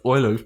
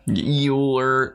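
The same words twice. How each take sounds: First: Euler said as OY-ler, the German way; German pronunciation. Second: Euler drawn out slowly as YOO-ler; Anglicized pronunciation. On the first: Praising the professor's pronunciation, Euler as German OY-ler. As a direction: begin Euler with an OY sound. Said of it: "impeccable pronunciation of Euler". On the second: Echoing the Western version, Euler as slow YOO-ler. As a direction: stretch the YOO at the start of Euler. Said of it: "known in the West as Euler". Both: Shown as a demonstration.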